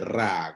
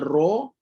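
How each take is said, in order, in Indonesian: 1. Bunyi ra itu tipis dan ringan. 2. Bunyi ra itu tebal dan penuh. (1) "tak boleh jadi tiba-tiba jadi ra" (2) "bahagian atas bunyinya ra"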